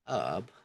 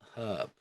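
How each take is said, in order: First: The initial H is silent. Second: The initial H is sounded. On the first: "in many British accents, the H at the beginning of a word is often omitted" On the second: "The H is pronounced in the word herb"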